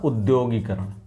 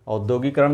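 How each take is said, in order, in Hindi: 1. यह शब्द 'u' ध्वनि से शुरू होता है। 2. यह शब्द 'au' ध्वनि से शुरू होता है। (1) "क्या होता" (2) "औद्योगिकरण नहीं होता"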